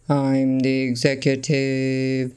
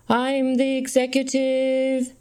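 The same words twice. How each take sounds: First: The voice is pitched much deeper. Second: The voice is pitched relatively high. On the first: The speaker sounds more powerful. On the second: The speaker sounds less powerful.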